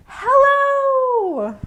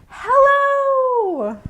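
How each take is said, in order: First: It sounds happy and very excited. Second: The same.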